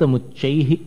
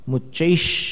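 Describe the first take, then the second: First: The word ends with a breathy h sound. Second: The word ends with a sh sound. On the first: The speaker calls it wrong. "नहीं, मुच्चैः यहां विसर्ग इन्होंने गलत छापा है" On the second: The speaker calls it right. "मुच्चैश ये श बन जाएगा"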